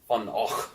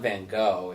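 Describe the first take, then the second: First: The name is said with a Scottish-sounding throaty ending. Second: The name is said in a plain, ordinary way. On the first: The speaker calls it right. "it's like Van Gogh or something. Super Scottish" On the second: The speaker calls it wrong. "it's not Van Gogh"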